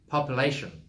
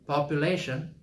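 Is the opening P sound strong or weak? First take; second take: strong; weak. First: The opening P has a strong burst of air. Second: The opening P has little burst of air. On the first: The speaker calls it right. "you should try to say population" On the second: The speaker calls it wrong. "instead of population"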